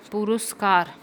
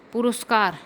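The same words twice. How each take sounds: The two takes are said the same way.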